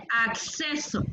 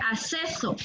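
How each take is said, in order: First: "acceso" slowly as "ak-seso"; careful, slow "acceso" with a clear k; correct acceso. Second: "acceso" as "aseso", no k sound; "acceso" with a lone s sound; mispronounced acceso. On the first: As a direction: sound both c's in "acceso", k then s. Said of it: "se dice acceso". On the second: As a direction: drop the first c of "acceso". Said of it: "No se dice acceso". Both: Shown as a demonstration.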